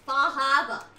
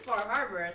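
First: The R sounds are dropped, Maine style. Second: The R sounds are clearly pronounced.

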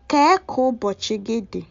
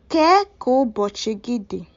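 First: The opening word is shortened to ke. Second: The opening word is shortened to ke.

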